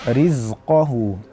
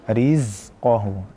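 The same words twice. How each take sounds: The two takes are said the same way.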